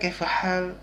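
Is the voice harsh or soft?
soft. It is said in a softer, gentler way. "agak lembut lagi itu kan"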